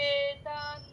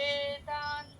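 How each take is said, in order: No difference in how they are said.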